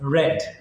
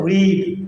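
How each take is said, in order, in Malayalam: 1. സ്വരം ഹ്രസ്വമാണ്, 'red' പോലെ. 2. സ്വരം ദീർഘമാണ്, 'reed' പോലെ. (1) "വായിച്ചു എന്ന് പറയുമ്പോൾ നമ്മൾ റീഡ് എന്ന് പറയുന്നത് റെഡ്" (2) "റീഡ്, വായിക്കുക"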